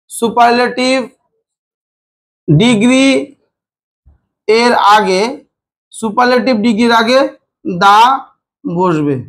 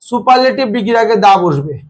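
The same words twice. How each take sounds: First: Chunk by chunk, long pauses between phrases; dictation pace. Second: Said in the usual way. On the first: Shown as a demonstration. Teacher dictates a grammar rule to students, slow paused dictation. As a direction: dictate it piece by piece for note-taking.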